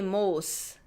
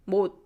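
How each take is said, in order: First: The final consonant is released as an s. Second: The final consonant is a silent tongue stop. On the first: The speaker calls it wrong. "we don't say most" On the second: The speaker calls it right. "We put our tongue there and stop"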